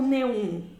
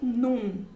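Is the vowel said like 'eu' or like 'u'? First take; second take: eu; u. First: The vowel is said like 'eu'. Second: The vowel is said like 'u'. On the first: The speaker calls it wrong. "esse daqui você não pronuncia como neum" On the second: The speaker calls it right. "você pronuncia como num"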